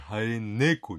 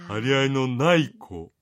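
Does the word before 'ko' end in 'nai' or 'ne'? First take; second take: ne; nai. First: The word is reduced to a short ne. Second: The word is said fully as nai. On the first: The speaker calls it right. "張り合いの猫、ね、にしてください" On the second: The speaker calls it wrong. "張り合いのない子ではなくて"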